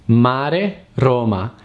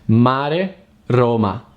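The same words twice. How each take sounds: Both takes have the same delivery.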